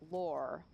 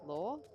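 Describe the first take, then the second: First: The word ends with a clear R sound. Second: The word ends without any R sound. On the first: "in most American accents ... L O R E is pronounced lore with an R on the end" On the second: "in the Australian accent, the words spelt L O R E and L A W are actually pronounced the same. They're both pronounced law"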